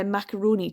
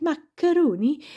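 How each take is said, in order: First: Said in the usual way. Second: Macaroni in a sing-song Stornoway accent, higher pitch, rising at the end. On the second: Shown as a demonstration. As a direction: sing the word Macaroni up and lilting like a Lewis islander. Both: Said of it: "use the word, uh, macaroni to get into the accent".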